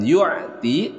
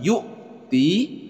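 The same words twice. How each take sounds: First: The final vowel is short. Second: The final vowel is held long. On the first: The speaker calls it wrong. "jangan yu'ti" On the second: The speaker calls it right. "ti-nya panjang dua harakat"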